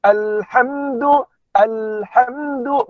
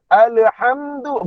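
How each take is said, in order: First: Alhamdu slow and even, the l with no le sound; smooth correct l. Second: Alhamdu with an added le, said like alehamdu; wrong bouncing l. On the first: Teacher shows the right reading slowly. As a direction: glide through alhamdu without a bounce. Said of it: "bukan ale". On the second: Teacher demonstrates what not to say. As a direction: show the mistaken bounce on the l. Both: Shown as a demonstration.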